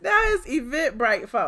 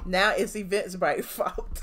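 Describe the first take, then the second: First: Louder, higher jeering repeat; mocking repeat. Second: Chuckling through Now it's Eventbrite's fault; laughing scoff. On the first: Host jeering at the ranting woman, louder and mocking. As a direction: hammer the jab home, louder. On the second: Real, not acted. Host laughing at the ranting woman's excuse, chuckling.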